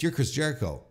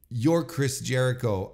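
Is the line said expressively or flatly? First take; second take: expressive; flat. First: The line is said with lively, pointed inflection. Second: The line is said flatly, with no inflection. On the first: It hints that the person cannot be trusted. The speaker calls it right. "There was no little spice to the line to where you would have gone" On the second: It sounds like a plain statement of who the person is. The speaker calls it wrong. "There was no inflection"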